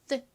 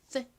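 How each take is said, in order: First: The th sound is crisp and clearly articulated. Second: The th sound is crisp and clearly articulated.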